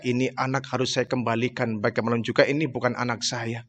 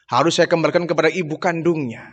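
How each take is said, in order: First: Quiet, sorrowful self-talk, much softer and lower; a hushed, heavy-hearted lament; sad inner thought. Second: Said in the usual way. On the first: Retold or imitated. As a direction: murmur it to yourself in grief. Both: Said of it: "kesedihan yang sangat luar biasa".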